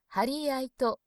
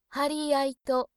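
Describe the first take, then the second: First: It is said with a Kanto-style flat pitch. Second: It is said with a Kansai-style flat pitch. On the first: The speaker calls it wrong. "関東式平板の針やいとでもなくて" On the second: The speaker calls it right. "全体的にプレーンに読む"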